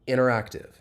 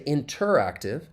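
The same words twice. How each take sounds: First: The T after the N is dropped. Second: The T after the N is clearly pronounced. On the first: The speaker calls it right. "it elides" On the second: The speaker calls it wrong. "That T in interactive, I don't say interactive"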